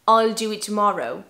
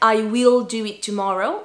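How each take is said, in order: First: The word will is contracted to a short l. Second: The word will is said in full. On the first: "naturellement on va contracter parce que ça va plus vite" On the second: "on va pas dire I will do it tomorrow"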